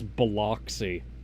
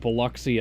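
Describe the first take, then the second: First: The name is said a non-local way. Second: The name is said the local way. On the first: The speaker calls it wrong. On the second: The speaker calls it right.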